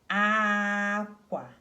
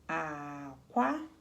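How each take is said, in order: First: The first syllable is high, the second falls. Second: The first syllable is low in pitch. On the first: "ah, see it goes high, high, ... qua, okay, so this goes down" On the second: "so this is low, right? It's not ah, it's low"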